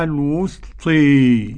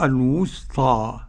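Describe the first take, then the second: First: The final vowel is tilted fully toward 'e'. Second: The final vowel is a fully open 'a'. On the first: "الإمالة" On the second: "الفتح"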